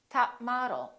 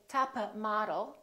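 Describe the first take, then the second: First: The p is held without release. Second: The p is released before the next word. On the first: The speaker calls it right. "hold it, don't release the final stop" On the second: The speaker calls it wrong. "Don't say top model"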